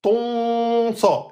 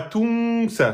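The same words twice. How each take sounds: First: Ton sa with a full dark o and nasal n; dark emphatic ton. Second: Tung sa with a light, thin nasal vowel. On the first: Teacher contrasts right and wrong nasal, correct take. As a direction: say Ton sa with a rounded, heavy o. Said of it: "Et pas tung sa". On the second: Teacher shows students the wrong thin nasal. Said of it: "une nasalisation amincie". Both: Shown as a demonstration.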